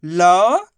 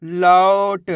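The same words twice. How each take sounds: First: लौट split into लौ, long pause, ट; sound by sound. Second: लौट as one whole word; sounds joined. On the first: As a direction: stretch लौ upward, pause, then ट alone. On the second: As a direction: blend लौ and ट without a pause. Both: Shown as a demonstration. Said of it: "तो मिलके बन जाएगा".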